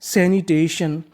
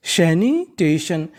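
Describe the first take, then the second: First: Said in the usual way. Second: सैनिटेशन slowly drawn out in pieces; syllable-by-syllable. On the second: Shown as a demonstration. Teacher repeats the assembled word for learners, syllable-by-syllable. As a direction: stretch each part of सैनिटेशन. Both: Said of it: "तो meaning बनी".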